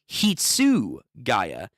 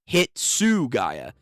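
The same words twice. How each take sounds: First: The ending sounds like 'guy-ya'. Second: The ending sounds like 'gah-ya'. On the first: This is how the English dub says it. "they pronounce it as Hitsugaya" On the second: This is the proper pronunciation. "not Hitsugaya"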